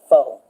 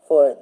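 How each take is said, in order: First: The final r is dropped. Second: The final r is pronounced.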